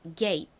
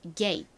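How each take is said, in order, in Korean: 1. 빠르게 말하며 짧고 터뜨리지 않은 마지막 t를 발음함. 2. 빠르게 말하며 짧고 터뜨리지 않은 마지막 t를 발음함.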